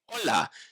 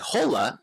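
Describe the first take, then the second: First: The word begins directly with the O vowel. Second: The word begins with an audible H sound. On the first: The speaker calls it right. "the H is silent" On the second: The speaker calls it wrong. "you won't often hear people say hola"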